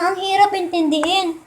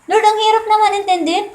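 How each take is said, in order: First: Said in the usual way. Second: Higher, whining plea to God; a raised, pleading sigh of a prayer; pleading prayer to Lord. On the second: Acted. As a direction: complain to the Lord like a tired believer. Acting out a complaining prayer.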